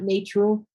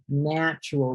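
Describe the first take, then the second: First: The first vowel is a long A sound. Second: The first vowel is a short A sound. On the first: The speaker calls it wrong. "not a long A sound. Not na, not natural" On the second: The speaker calls it right. "a short A sound. Natural, like apple"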